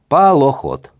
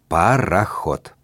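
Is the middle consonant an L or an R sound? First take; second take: L; R. First: The middle consonant is an L sound. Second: The middle consonant is a clear R sound. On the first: The speaker calls it wrong. "Мальчик Женя не умел говорить букву «Р»" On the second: The speaker calls it right. "скажи «пароход»"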